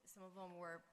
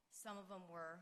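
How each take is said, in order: Both takes have the same delivery.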